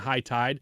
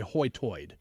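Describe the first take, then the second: First: It is said in a general American accent. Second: It is said in a local island accent. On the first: "instead of saying" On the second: "they would say"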